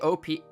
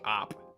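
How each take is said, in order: First: It is spelled out as two separate letters. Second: It is said as a single one-syllable word. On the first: "Do you guys say O P?" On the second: "I say op. ... op is just one syllable"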